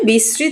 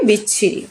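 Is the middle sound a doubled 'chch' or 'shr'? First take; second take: shr; chch. First: The middle has an 'shr' consonant cluster. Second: The middle has a doubled 'chch' sound. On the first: "বিশ্রী শব্দটি উচ্চারণে আমরা কি লিখি?" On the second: "বিচ্ছিরি ব্যবহার করি"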